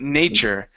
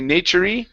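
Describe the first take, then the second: First: Nature ends without any added vowel sound. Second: Nature ends with an added E vowel sound. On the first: The speaker calls it right. "this E here at the end is silent" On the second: The speaker calls it wrong. "We don't want to say nature-y"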